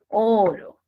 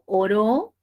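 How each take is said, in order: First: The stress falls on the first syllable. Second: The stress falls on the second syllable. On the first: The precious metal, gold. "Es una palabra grave" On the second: Someone prayed. "tendría una aguda"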